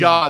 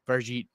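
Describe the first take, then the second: First: The name ends without any T sound. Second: The name ends with a clear T sound. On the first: The speaker calls it right. "There's no T" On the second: The speaker calls it wrong. "Americans all say Farjit because of the T"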